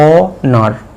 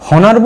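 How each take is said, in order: First: The word begins directly with a vowel sound. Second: The word begins with an audible h sound. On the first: The speaker calls it right. "এই এইচটার উচ্চারণ হবে না" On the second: The speaker calls it wrong. "হনার বলবো না অনার বলবো?"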